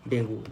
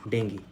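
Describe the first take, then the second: First: The word ends in an 'oo' vowel. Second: The word ends in an 'ee' vowel. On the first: This is the common everyday way of saying it. The speaker calls it wrong. "हम लोग डेंगू पढ़ते हैं ना" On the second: This is the name used for the virus. The speaker calls it right. "जो virus होता है उसको डेंगी बोलेंगे"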